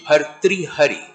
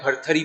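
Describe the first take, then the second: First: The name is said in its full classical form. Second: The name is said in a shortened colloquial form. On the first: This is the proper pronunciation of the name. The speaker calls it right. "उसका सही उच्चारण है" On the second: This is how village people say the name. The speaker calls it wrong. "उसको गांव में जो है भरथरी भी बोलते हैं"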